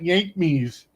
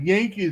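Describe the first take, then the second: First: The word is said with an 'm' sound inside. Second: The word is said plainly, without an 'm' sound. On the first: The speaker calls it wrong. "not Yank me's" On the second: The speaker calls it right. "He said Yankees"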